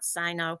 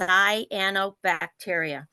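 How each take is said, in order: First: The middle 'a' syllable is dropped. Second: It starts 'sigh' with the full 'ano' syllables. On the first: The speaker calls it wrong. "it's not cyno" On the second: The speaker calls it right. "it's cyanobacteria"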